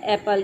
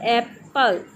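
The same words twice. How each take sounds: First: Said in the usual way. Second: एप्पल slowly broken as एप, पल; एप्पल in two separate beats, एप then पल; split into syllables. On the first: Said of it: "ये तो एक word है". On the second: Shown as a demonstration. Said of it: "उस word के parts जितने भी हैं वो सिलेबल होंगे".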